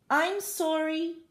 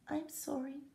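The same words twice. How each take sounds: First: It is said louder still. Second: It is said very softly.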